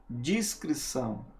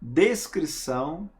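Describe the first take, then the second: First: "descrição" said with dji, as "discrição"; quiet "descrição" said as discrição; dis sound, discrição. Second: "Descrição" with a clear des at the start; "Descrição" said as des-crição, rising at the end; clear des sound. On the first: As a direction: soften the start of "descrição" to dis and let it fall. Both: Shown as a demonstration. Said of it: "por mais parecida que seja com descrição".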